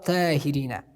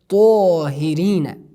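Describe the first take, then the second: First: The first consonant is light and thin. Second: The first consonant is heavy and full. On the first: The speaker calls it wrong. "We never say ta, ta, tahirina. It's wrong" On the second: The speaker calls it right. "We have to pronounce them strongly"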